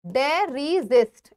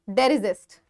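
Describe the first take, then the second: First: डेरिजिस्ट slowly, broken into डे, रि, जिस्ट; syllable-by-syllable pronunciation. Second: Said in the usual way. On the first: Shown as a demonstration. Teacher showing students how to say the word, डेरिजिस्ट slowly broken up. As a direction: sound out डेरिजिस्ट in separate, drawn-out parts. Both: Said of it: "इसको डेरिजिस्ट बोलेंगे".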